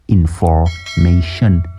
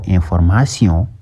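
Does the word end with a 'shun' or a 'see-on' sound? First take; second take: shun; see-on. First: The ending is said like English 'shun'. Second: The ending is said like French 'see-on'. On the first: The speaker calls it right. "bat la wax information" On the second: The speaker calls it wrong. "waxoo information"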